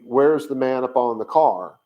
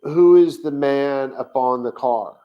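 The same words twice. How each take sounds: First: "Where's" stressed; literal translation read. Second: Slow, loud literal reading; literal translation read. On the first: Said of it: "he's asking literally". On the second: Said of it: "he's gonna ask". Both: Shown as a demonstration.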